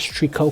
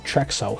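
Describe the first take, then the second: First: The name is said with a plain k sound. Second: The name is said with a ks sound. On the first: The speaker calls it wrong. "I did pronounce it as Trico because I thought that's how it's pronounced" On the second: The speaker calls it right. "I found out that his name is actually Trexo"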